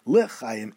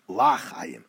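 First: The first vowel is a short 'eh' sound. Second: The first vowel is an open 'ah' sound. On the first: The speaker calls it right. "yomar b'shva, with a eh sound, the shva sound" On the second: The speaker calls it wrong. "lo yomar b'patach"

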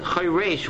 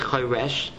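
First: The second vowel is a tzere, like ei. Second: The second vowel is a short plain e. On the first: The speaker calls it right. "It says choresh with a tzere" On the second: The speaker calls it wrong. "It is not a verb with a segel. It does not say choresh"

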